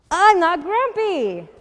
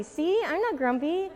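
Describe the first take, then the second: First: Loud, high, drawn-out protest; indignant denial. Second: Lightly put-on happy voice, higher; forced cheer. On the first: Jim insists to Norman and Snake, loud and indignant. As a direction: insist crossly, stretching it out. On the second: Jim tries to prove he is happy, mildly cheery. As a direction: insist with a show of cheer. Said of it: "Funny, he looked happy". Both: A narrator's reading.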